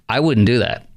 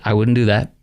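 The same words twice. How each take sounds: First: It is said in a threatening, forceful way. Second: It is said in a calm, plain way. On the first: The speaker calls it wrong. "I actually didn't even say it like that" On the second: The speaker calls it right. "I just said it like that. Not threatening"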